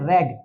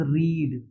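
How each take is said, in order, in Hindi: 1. स्वर छोटा है, जैसे 'red' में। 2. स्वर लंबा है, जैसे 'reed' में।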